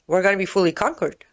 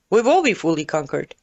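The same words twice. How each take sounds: First: Said in the usual way. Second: "will" stressed as a firm certainty. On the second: Real, not acted. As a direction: lean hard on "will". Restates it, firming up the verb.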